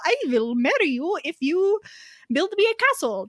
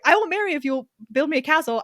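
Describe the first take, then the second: First: It is said in a put-on Swedish accent. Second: It is said in the speaker's normal accent.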